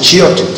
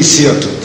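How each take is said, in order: First: The word begins with an sh sound. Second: The word begins with an s sound. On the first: "but some pronounce it shirtut" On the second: "it's spelled with a samach. So it's certainly sirtut"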